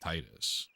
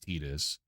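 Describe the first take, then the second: First: The first syllable sounds like 'tide'. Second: The first syllable does not sound like 'tide'.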